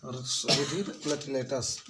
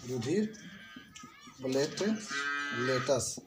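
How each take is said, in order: First: Said in the usual way. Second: "रुधिर platelets" slowly, with long gaps between the parts; word-by-word dictation. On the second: Shown as a demonstration. Teacher giving pupils the third name, slow split "रुधिर platelets". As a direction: pause after "रुधिर", then split "platelets" into plate and latus.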